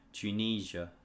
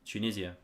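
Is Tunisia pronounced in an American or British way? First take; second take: American; British. First: It is pronounced with an American accent. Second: It is pronounced with a British accent. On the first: "so the way you guys pronounce it" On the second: "At least that's how we say it in the U K"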